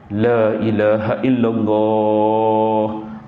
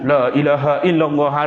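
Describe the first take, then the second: First: The phrase is said at a moderate pace. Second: The phrase is rushed out very quickly. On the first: The speaker calls it right. "Sederhana saja" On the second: The speaker calls it wrong. "Dan jangan terlalu cepat pula nak ajar"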